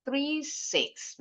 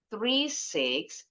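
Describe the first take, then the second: First: Very slow "three six", falling on "six"; falling final intonation. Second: Very slow "three six", going up on "six"; rising intonation. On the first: Teacher signalling the phone number is over, falling intonation. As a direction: end "three six" downward to finish the number. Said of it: "terakhir intonasinya turun". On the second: Teacher modelling the number's next-to-last group, rising intonation. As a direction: hold "three six" up, another group still coming. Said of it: "intonasinya naik". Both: Shown as a demonstration.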